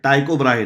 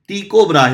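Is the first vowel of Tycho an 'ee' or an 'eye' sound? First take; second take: eye; ee. First: Tycho starts with an 'eye' vowel. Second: Tycho starts with an 'ee' vowel. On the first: The speaker calls it wrong. "नहीं" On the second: The speaker calls it right. "होता है"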